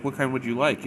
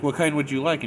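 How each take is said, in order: First: Slightly raised, higher voice; repeating for poor hearing. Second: Raised, higher voice for poor hearing; imitating a louder second try; louder repeat. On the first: Retold or imitated. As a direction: ask it for someone hard of hearing. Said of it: "he does the same thing". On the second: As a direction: repeat it louder to someone who can't hear. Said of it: "each time she's getting louder".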